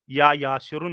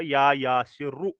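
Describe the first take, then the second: First: या यासिरुन closing on an n sound; rejected reading with -un. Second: या यासिरु ending on a bare u, no n; correct reading with -u. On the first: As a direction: say यासिरुन with the nunated -un ending. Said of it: "या यासिरुन नहीं पढ़ा". (यासिरुन के अंत में "उन" की आवाज़) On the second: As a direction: end यासिरु on an open short u. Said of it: "मैं पढ़ूंगा या यासिरु". (यासिरु के अंत में सिर्फ़ "उ", बिना "न") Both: Shown as a demonstration.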